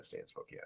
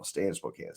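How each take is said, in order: First: Breathy whisper of "stay in Spokane"; whispered repeat. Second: Said in the usual way. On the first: Retold or imitated. Repeating dad's wish to stay in Spokane, in a whisper. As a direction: echo the words under the breath.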